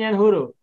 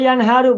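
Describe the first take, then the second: First: The vowel after the h is 'u'. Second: The vowel after the h is 'a'. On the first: The speaker calls it wrong. "bukan yanhuru" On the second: The speaker calls it right. "Naharo yanharu bukan yanhuru"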